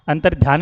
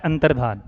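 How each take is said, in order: First: अंतर्ध्यान with a y glide in ध्या; अंतर्ध्यान spoken as dhyaan; wrong form. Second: अंतर्धान with plain धा, no y glide; अंतर्धान spoken as dhaan, not dhyaan; correct form. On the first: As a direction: say अंतर्ध्यान as the mistaken version. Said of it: "नहीं होता". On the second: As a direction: say अंतर्धान as the right version. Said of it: "शब्द होता है". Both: Shown as a demonstration.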